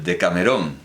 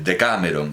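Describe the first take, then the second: First: It uses the usual Spanish pronunciation. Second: It uses the Greek-style pronunciation.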